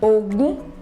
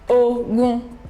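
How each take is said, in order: First: The tone goes from mid to high. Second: Both syllables are on a mid tone. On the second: "Re, Re"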